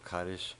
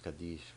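First: The word has an Ashkenazi pronunciation. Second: The word has a non-Ashkenazi pronunciation. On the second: This is how most other people say it. "everyone else usually says Kaddish"

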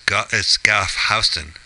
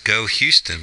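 First: The first word rhymes with 'cough', ending in f. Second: The first word rhymes with 'go', no final f. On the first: The speaker calls it right. "but they're actually known as Gough Houston" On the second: The speaker calls it wrong. "they mispronounce this as Go Houston"

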